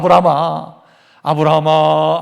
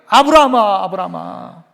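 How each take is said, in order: First: The name is called slowly and calmly. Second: The name is called quickly and urgently. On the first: "안 하시고" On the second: "급하게 부르"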